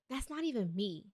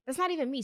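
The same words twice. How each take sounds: First: Said in the usual way. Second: "That's not even me" pitched higher, stress on "not"; emphatic repeat. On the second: Retold or imitated. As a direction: punch "not" and lift the whole line. Rejecting her own typed message.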